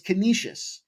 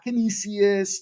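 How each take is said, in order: First: The name is said as con-e-shus. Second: The name is not said as con-e-shus. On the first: The speaker calls it right. "It's Canisius, Con e shus" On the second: The speaker calls it wrong. "not Canisius"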